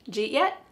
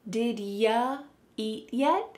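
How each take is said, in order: First: Did is dropped and you becomes j. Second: You is reduced to ya after did. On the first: "we're dropping did and we're keeping j and then eat" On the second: "Here the word you is being reduced to ya"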